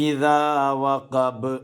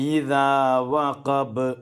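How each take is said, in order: Both takes have the same delivery.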